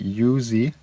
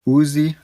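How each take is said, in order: First: The word starts with a Y sound. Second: The word starts without a Y sound. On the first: The speaker calls it wrong. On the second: The speaker calls it right.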